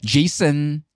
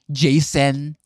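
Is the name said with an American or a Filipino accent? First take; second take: Filipino; American. First: The name is said in a Filipino way. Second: The name is said in an American way. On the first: "'pag sinabi mo Jason, sabihin barok ka" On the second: "dapat Jasen"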